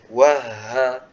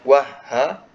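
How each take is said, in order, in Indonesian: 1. Napas mengalir terus melewati huruf h. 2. Napas pada huruf h terputus. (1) "tapi dialirkan nafasnya. Wah ha, seperti itu" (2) "Jangan sampai udaranya terputus. Bukan wah ha"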